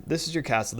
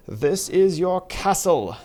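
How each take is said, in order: First: Said in the usual way. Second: Higher, louder and slow; grand announcement. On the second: Shown as a demonstration. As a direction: present it like a proud herald.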